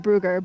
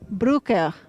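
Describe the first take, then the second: First: The name is said in an Americanized way. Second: The name is said in its native way. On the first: The speaker calls it wrong. "that's too American" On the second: The speaker calls it right.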